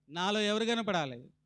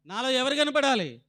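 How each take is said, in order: First: Said in the usual way. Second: The question raised higher and louder; preacher hammering the question again; louder repeat. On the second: Shown as a demonstration. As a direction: press the question home to the congregation. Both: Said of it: "repeated question, second louder".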